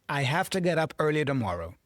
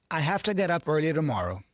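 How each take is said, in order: Both takes have the same delivery.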